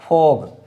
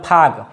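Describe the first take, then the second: First: The vowel falls between 'oh' and 'ah'. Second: The vowel sounds like an open 'ah'. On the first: The speaker calls it right. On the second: The speaker calls it wrong. "न फाग"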